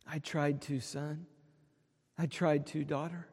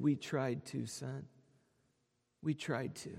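First: Soft, low, tender reply, much quieter; gentle God. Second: Soft, broken reply, much quieter; a choked, tender whisper of regret; tearful father. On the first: Pretend. God answers his children at heaven's gate, soft and tender. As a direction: answer like a loving father, gently. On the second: Retold or imitated. Weeping father answers his newly sighted son, soft and tearful. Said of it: "with tears streaming down his cheek".

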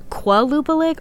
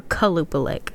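First: "Qualupalik" starting kwuh, as in "quality"; with a kw sound. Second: "Kalupalik" starting kuh, no w sound; with a plain k sound. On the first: Checking the name aloud, "Qualupalik" with a kw start. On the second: Checking the name aloud, "Kalupalik" with a plain k start. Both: Shown as a demonstration. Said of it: "can't remember if it's".

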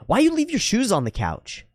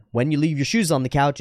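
First: High-pitched imitation of an accusing housemate; mock reproach in a much higher voice; confrontational demand. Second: Calm, even statement of a concern; earnest and measured; direct, sincere. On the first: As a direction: mimic a nagging challenge, pitched way up. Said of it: "And it didn't go well". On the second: Shown as a demonstration. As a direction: say it seriously, without accusation. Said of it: "directly and seriously and sincerely".

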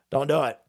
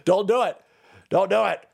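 First: Said in the usual way. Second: Louder, firm warning. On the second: Real, not acted. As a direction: stop them firmly. Repeated warning, loud first.

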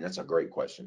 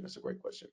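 First: Said in the usual way. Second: Whisper. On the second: Real, not acted. Pleased preacher whispering an aside to the room. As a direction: whisper "That's a great question." to himself. Repeats the praise under his breath.

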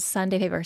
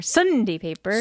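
First: Said in the usual way. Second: Sunday with a punched SUN and a reduced "dee"; exaggerated dad-style "Sunday paper"; dad's Sunday paper. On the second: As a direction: stretch SUN in Sunday, shrink the ending. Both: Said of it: "Just like he says Sunday paper".

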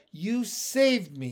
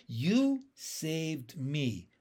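First: A touch higher, slowed-down big frog; lightly voiced Pin. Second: Slow, hushed wonder; slow realisation. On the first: Pin turning the words back on his friend, lightly voiced big frog. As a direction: say it back to him simply. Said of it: "he said". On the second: Acted. Young frog finally realising Pin saved him, slow and wondering. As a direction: let it dawn on you slowly. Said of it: "I said at last".

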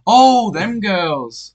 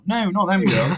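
First: High, very slow drawn-out oh; mocking his realisation. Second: Laughing as she says no; laughing retort. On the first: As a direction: stretch it out like a dim penny dropping. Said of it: "he's like". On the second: Retold or imitated. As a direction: giggle through the denial. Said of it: "I'm like".

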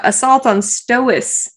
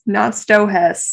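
First: "Stohess" run together as STO-iss; corrected pronunciation. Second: "Stohess" slowly split, STO-HESS; wrong pronunciation. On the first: Host correcting herself, "Stohess" run together. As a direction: say "Stohess" without the h. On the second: Host showing her mistake, "Stohess" broken up. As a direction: sound the h in "Stohess". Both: Shown as a demonstration.

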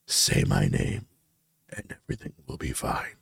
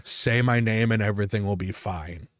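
First: Ghostly dream voice. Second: Said in the usual way. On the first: Retold or imitated. Dream figure coaxing the sleeper, creepy low whisper.

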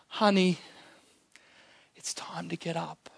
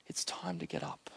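First: Put-on much softer, hushed words to a sleeping child; soft whisper. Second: Fully unvoiced, much lower and softer whisper; just breath, no voice. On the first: Jesus whispering to the dead girl, soft hush. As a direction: breathe it gently like waking a child. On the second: Jesus whispering to wake the girl, unvoiced whisper. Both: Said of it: "he whispers to her".

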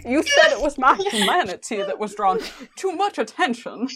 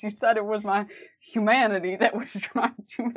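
First: A laughing Dean voice, higher and louder; Dean impression, laughing. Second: Dean attempt that slides into [name]; an [name]-tinged try at Dean; Dean sounding like [name]. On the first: Nailing the Dean impression for friends, laughing. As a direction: land the Dean voice while laughing. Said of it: "It's so perfect". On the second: First go at Dean's line, still sounding like [name]. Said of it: "it's still [name]".

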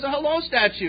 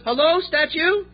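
First: Said in the usual way. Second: Slow answering-the-phone hello with a high rise on "Hello"; phone greeting. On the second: Retold or imitated. Mafia boss answering a phone call, punchline. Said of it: "Ring, ring".

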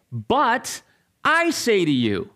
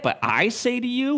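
First: Raised pitch, emphatic pause after BUT, falling close; Jesus declaring. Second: High, rising questioning quote; incredulous echo. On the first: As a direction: pronounce it with authority, stressing I. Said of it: "then he's going to say". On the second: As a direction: throw the words back in disbelief. Shocked listener echoing Jesus's words. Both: Acted.

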